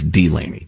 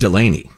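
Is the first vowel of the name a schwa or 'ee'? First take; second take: ee; schwa. First: The first vowel is a long 'ee'. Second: The first vowel is a weak schwa. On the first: The speaker calls it right. "It's Delaney, D, D" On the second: The speaker calls it wrong. "like the schwa, the upside down E"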